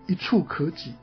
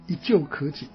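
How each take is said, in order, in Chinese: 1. 第二个字读 chu。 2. 第二个字读 jiu。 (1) "我一定不会念一触可及" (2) "我一定念一旧可及，因为那个字看起来就像旧啊"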